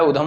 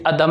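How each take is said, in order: First: उधम with an opening "u"; correct form shown. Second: अधम with an opening short "a"; wrong form shown. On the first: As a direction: say उधम, starting on "oo". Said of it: "उधम होता है". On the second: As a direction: say अधम, starting on "uh". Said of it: "अधम नहीं होता है". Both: Shown as a demonstration.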